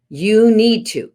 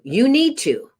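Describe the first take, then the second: First: Commanding you need to. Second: "need" lifted much higher, falling off after; stress on need. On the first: Parent ordering a child to do chores, stern command. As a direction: stress on "You", louder and higher, falling firmly. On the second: Parent nagging a child about schoolwork, exasperated high demand. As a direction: push the pitch way up on "need" and drop. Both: Shown as a demonstration. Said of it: "So for example".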